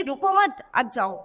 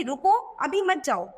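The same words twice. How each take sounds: First: रुको मत joined, then अब जाओ dropping much lower; pause after मत. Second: रुको set apart, then अभी मत जाओ together; pause after रुको. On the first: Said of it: "दोनों का अर्थ एकदम बिल्कुल चेंज हो गया". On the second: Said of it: "इसका मतलब हम क्या कह रहे हैं कि". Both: Shown as a demonstration.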